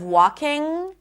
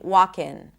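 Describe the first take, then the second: First: The word ends in an ng sound. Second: The word ends in a plain n sound. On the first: "instead of walking" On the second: "to pronounce it as an N"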